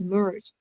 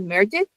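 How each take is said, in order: First: The ending adds no extra syllable. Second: The ending is said as an extra syllable. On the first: The speaker calls it right. "just merge" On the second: The speaker calls it wrong. "We don't say merge it"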